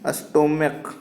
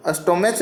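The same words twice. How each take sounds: First: स्टोमक ending in a hard "k"; correct reading. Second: स्टोमच ending in a "ch" sound; wrong reading. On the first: Teacher answering what we will read, स्टोमक with a k ending. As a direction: say स्टोमक with final क, no ch. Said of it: "क्या पढ़ेंगे?". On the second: Teacher showing students how not to read it, mispronounced स्टोमच with ch. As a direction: say स्टोमच with final च as in "much". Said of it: "स्टोमच नहीं पढ़ेंगे इसको". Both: Shown as a demonstration.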